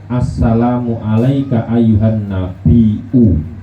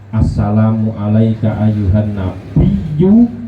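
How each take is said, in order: First: The word nabi has a glottal stop. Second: The word nabi has a doubled y sound. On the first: "dengan menggunakan ham hamzah" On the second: "dengan ya yang ditasdid"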